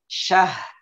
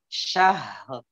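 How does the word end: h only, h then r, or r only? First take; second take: h only; h then r. First: The word ends with h and no r. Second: A breathy h is followed by an added r. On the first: The speaker calls it wrong. "ada yang membacanya syah" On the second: The speaker calls it right. "Yang benar syahr"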